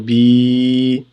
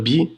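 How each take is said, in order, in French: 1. La voyelle est prolongée. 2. La voyelle est courte. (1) "deux fois" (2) "au lieu de dire bi"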